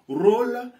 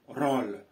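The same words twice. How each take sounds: First: The o vowel is closed. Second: The o vowel is open. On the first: The speaker calls it right. "le O doit être un O fermé" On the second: The speaker calls it wrong. "et non rôle"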